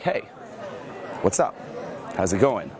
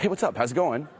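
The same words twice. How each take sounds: First: It is said slowly with weight. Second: It is said fast and rushed.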